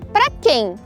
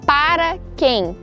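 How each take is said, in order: First: The first word is shortened to one syllable. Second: The first word is said fully with two syllables.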